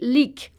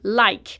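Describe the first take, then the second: First: The vowel is a short 'i' sound. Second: The vowel is an 'eye' diphthong. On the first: The borrowed word is read with French spelling rules. The speaker calls it wrong. "we don't say lick" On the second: The borrowed word keeps its English pronunciation. The speaker calls it right. "we say like"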